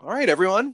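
It is said in a jolly, cheerful tone.

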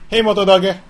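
The voice is excited and energetic. The phone does not respond to it. The speaker calls it wrong. "I'll try excited"

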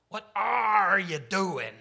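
It is said imitating Barbossa's voice.

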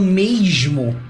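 It is said in a Rio de Janeiro accent.

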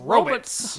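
It is said forcefully, with commanding authority. "You have to say it with authority like a scientist"

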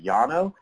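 The name has a Spanish-style pronunciation. The speaker calls it right. "if you're going to pronounce it correctly"

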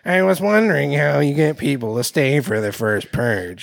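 It is read in an exaggerated character voice.

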